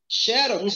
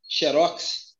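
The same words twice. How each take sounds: First: The stress is on the first syllable. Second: The stress is on the last syllable.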